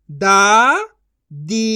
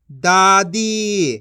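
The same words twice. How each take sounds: First: दादी split into दा, pause, दी; syllable by syllable. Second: दादी as one joined word; long दादी, no break, falling at the end; blended reading. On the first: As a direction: sound out दादी in two syllables. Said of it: "एक एक अक्षर का उच्चारण करके". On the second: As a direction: join दा and दी smoothly. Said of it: "इनको आपस मिला के पढ़". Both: Shown as a demonstration.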